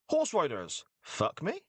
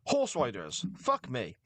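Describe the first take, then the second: First: It is said as an inquisitive question. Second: It is said as a flat exclamation.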